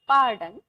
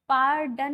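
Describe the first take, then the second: First: The r sound is soft and barely pronounced. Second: The r sound is pronounced strongly. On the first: The speaker calls it right. "आर को बहुत ज्यादा pronounce नहीं किया जाता है" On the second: The speaker calls it wrong. "पार्डन नहीं बोलना है"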